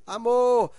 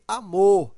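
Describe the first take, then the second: First: "amor" called loudly, MOR held long; stretched MOR. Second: "amor" with a loud final MOR; stress on MOR. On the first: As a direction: draw out the last syllable of "amor" as if calling. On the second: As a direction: punch the last syllable of "amor". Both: Shown as a demonstration. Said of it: "o mor é a sílaba mais forte".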